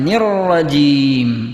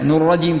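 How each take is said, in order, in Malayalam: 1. ബന്ധിപ്പിക്കുന്ന സ്വരം 'i' പോലെയാണ്. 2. ബന്ധിപ്പിക്കുന്ന സ്വരം 'u' പോലെയാണ്. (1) "ഇതാ ഇതാണ് ശരി" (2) "നുർ റജീം തെറ്റാണ്"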